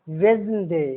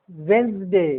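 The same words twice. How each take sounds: The two takes are said the same way.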